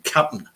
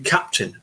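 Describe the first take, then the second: First: It is said in a loose American accent. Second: It is said in a crisp, precise British accent. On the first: The speaker calls it wrong. "He wouldn't say yeah" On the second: The speaker calls it right. "It would be Captain. You know, very very precise"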